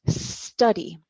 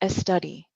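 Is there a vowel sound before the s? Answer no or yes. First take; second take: no; yes. First: The word starts directly with the s sound. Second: An extra e vowel comes before the s. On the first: The speaker calls it right. "The pronunciation study" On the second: The speaker calls it wrong. "the English pronunciation no es study"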